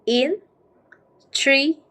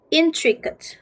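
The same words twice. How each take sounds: First: "Intricate" split into three slow, separate beats; syllable by syllable. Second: Said in the usual way. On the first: Shown as a demonstration. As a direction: break "Intricate" apart with long pauses between syllables. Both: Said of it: "How can we read?".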